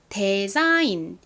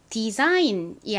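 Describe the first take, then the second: First: The first syllable has an eh vowel. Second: The first syllable has an ee vowel. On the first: The speaker calls it wrong. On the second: The speaker calls it right.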